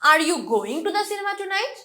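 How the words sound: The word going is stressed. Is the person going or not? "So going টাতে আমি stress দিচ্ছি"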